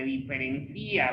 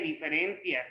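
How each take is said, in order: First: "diferencia" as di-fe-ren-CÍ-a; stress on the í. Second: "diferencias" as di-fe-REN-cias; stress on the E. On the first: Teacher pointing to the I, "diferencia" stressed on CÍ. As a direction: lean on the "í" of "diferencia", breaking it from the a. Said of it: "haciendo la referencia en la I". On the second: Teacher showing the noun without written accent, "diferencias" stressed on REN. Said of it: "no lleva acento en la E". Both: Shown as a demonstration.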